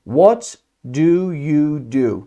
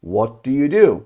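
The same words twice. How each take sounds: First: Slow, word by word, pausing after "What"; slow model question. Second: Said in the usual way. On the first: Shown as a demonstration. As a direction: spell out the question slowly for learners.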